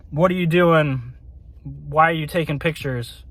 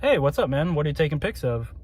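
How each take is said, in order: First: Imitating a stern, serious questioner; mock interrogation, kept understated; serious questioning. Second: Casual, softer friendly question; imitating an easygoing, curious passerby; polite asking. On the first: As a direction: question them seriously, as if demanding an answer. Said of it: "very serious questioning tone". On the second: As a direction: ask politely, trailing off softer. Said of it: "people asking politely, like".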